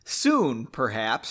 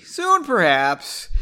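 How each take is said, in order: First: Understated, falling reply; mildly evasive, tailing down; noncommittal. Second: High, loud, drawn-out reply; slow, playful overplayed evasion; exaggerated noncommittal. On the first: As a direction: answer without promising anything. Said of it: "she said noncommittally". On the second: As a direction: stretch it out in a hammed-up sing-song. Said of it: "she said not". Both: A narrator's reading.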